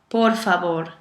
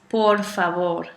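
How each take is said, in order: Both takes have the same delivery.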